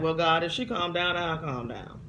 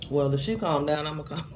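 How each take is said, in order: First: A hint of bargaining sass; bargaining with God, half defiant; mild stubborn talk-back; stubborn answer to God. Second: A touch of stubborn sass; talking back like a stubborn kid; mild mock defiance; stubborn retort. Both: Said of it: "It's my little stubborn crazy".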